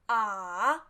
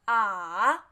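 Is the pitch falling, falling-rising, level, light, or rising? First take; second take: falling-rising; falling-rising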